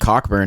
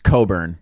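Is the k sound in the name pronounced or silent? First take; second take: pronounced; silent. First: The k sound in the middle is pronounced. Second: The k sound in the middle is silent. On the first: The speaker calls it wrong. "Last week I called uh, Kofi Cockburn" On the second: The speaker calls it right. "it's Coburn. Apparently that C K is silent"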